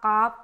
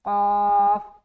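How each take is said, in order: First: The letter is said light and thin. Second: The letter is said heavy and thick. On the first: The speaker calls it wrong. "ऐसा नहीं बोलना" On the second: The speaker calls it right. "ये मोटा हर्फ है"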